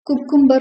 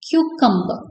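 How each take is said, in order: First: The first syllable is a plain 'koo' sound. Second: The first syllable is a 'kyoo' sound with y. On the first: The speaker calls it wrong. "குக்கும்பர் நம்ம சொல்லுவோம்" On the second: The speaker calls it right. "ப்ராப்பரா pronounce பண்றதுப்ப கியூகம்பர் கியூகம்பர் அப்படிதான் natives சொல்லுவாங்க"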